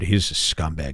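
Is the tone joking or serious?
serious. It is said in a grave, serious tone.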